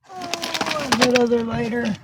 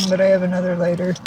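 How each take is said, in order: First: Pitched-up happy discovery; light up at finding it; oh, a sudden relieved find; pleased surprise. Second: Said in the usual way. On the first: Real, not acted.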